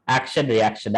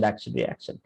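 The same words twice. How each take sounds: First: Said in the usual way. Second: Fading away. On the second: Shown as a demonstration. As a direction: drop much lower and softer, trailing off. Repeating karma cycle fading out.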